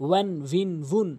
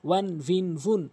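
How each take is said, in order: The two takes are said the same way.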